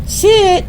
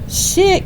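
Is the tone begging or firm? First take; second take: begging; begging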